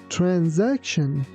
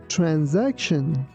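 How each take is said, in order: First: The middle letter is said as a Z sound. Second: The middle letter is said as a Z sound.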